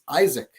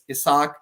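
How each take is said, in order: First: The name is pronounced with English sounds. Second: The name is pronounced with Spanish sounds. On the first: "in Anglo American English" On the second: "in Spanish"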